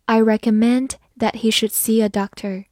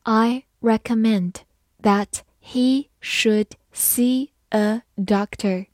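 First: Said in the usual way. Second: Slow, word-by-word model reading; teacher's slow read-along, each word separate. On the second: Shown as a demonstration. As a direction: read it slowly, pausing between the words. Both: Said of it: "慢慢来读".

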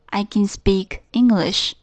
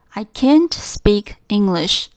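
First: Slow, even affirmative sentence, can said plainly. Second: Can't leaned on, slow and falling; stress on can't. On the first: Teacher modelling the positive form, slow and careful. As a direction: say it slowly, can unstressed and plain. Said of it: "肯定形式". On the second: Teacher showing the negative form, slow, stressing can't. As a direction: hit the word can't clearly, slowly. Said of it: "否定形式就是I can't". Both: Shown as a demonstration.

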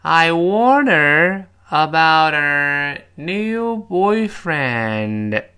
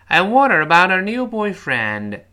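First: Loud, drawn-out choral model; slow read-along. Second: Loud, higher, linked in one breath; faster read-along. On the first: Teacher leading students together, slow and loud. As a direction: stretch each word so a class can join. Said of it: "我们再跟老师一块儿来". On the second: Teacher asking students to repeat faster, loud and linked. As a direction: run the sentence together briskly. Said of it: "快一点". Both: Shown as a demonstration.

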